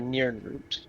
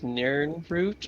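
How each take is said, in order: First: The first vowel sounds like the one in 'wind'. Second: The first vowel sounds like the one in 'bird'. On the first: "kind of like an I sound, like wind" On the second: "you can either pronounce I like bird"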